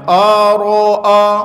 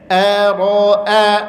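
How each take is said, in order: First: The first vowel is thick, with rounded lips. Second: The first vowel is thin, with spread lips. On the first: The speaker calls it wrong. "jangan ara'a" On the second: The speaker calls it right. "a-nya tipis, ra-nya tebal, a-nya senyum lagi"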